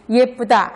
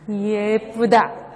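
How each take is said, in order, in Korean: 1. 첫 음절은 짧게 발음해요. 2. 첫 음절은 길게 늘여서 발음해요. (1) "아까 여러분들이 예쁘다 하는 것보다" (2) "장음이 이거야"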